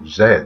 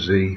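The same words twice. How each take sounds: First: The letter is said as 'zed'. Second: The letter is said as 'zee'. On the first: "as the English pronunciation" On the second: "for the American pronunciation"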